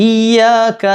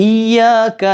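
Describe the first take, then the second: Both takes have the same delivery.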